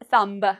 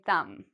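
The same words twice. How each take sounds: First: The final B sound is pronounced. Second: The final B sound is silent. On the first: The speaker calls it wrong. "Don't say thumb" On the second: The speaker calls it right. "we say thumb"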